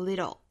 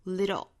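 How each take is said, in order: First: The t is a quick flap. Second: The same.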